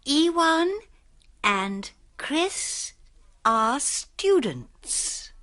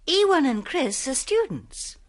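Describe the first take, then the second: First: It is said slowly. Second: It is said fast.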